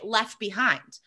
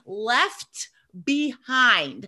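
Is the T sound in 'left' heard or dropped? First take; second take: dropped; heard. First: The T in left is dropped. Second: The T in left is pronounced.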